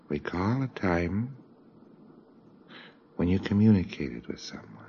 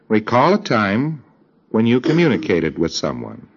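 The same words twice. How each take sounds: First: The command is spoken softly, in a quiet voice. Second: The command is spoken at full, ordinary loudness. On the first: The speaker calls it right. "give them the commands in a much quieter tone of voice" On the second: The speaker calls it wrong. "you've been speaking like that"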